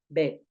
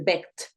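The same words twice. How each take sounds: First: The final consonant is a soft D. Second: The final consonant is hard and strong. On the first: The speaker calls it right. "esa ed se escucha mucho más suavecito" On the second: The speaker calls it wrong. "no vas a decir begged"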